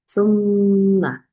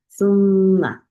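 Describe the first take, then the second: The two takes are said the same way.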